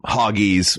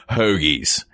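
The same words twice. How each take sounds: First: "hoggies" said with the vowel of hog; original pronunciation. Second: "hoagies" with a long oh in place of hog's vowel; Philly-accent pronunciation. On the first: Explaining the sandwich name's Hog Island origin, original pronunciation of "hoggies". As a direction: say "hoggies" to rhyme with doggies. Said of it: "they called them hoggies, which eventually". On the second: Explaining how the name changed in Philadelphia, Philly pronunciation of "hoagies". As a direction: say "hoagies" as HOE-geez. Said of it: "with that Philly accent became hoagies".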